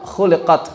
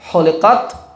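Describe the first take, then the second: First: The word begins with a rasping kh sound. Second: The word begins with a breathy h sound. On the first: It was created. The speaker calls it right. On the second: It was shaved. The speaker calls it wrong.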